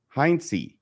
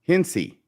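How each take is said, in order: First: The first vowel sounds like 'eye'. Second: The first vowel sounds like 'in'. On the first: The speaker calls it wrong. "I believe I said Heinz last Friday" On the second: The speaker calls it right. "I guess it's Hinsey, so I want to try and pronounce it correctly"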